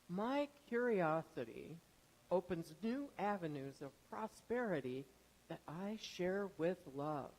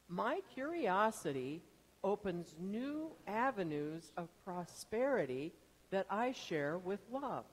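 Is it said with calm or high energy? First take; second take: calm; high energy. First: It is said calmly, with ordinary energy. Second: It is said with a lot of energy.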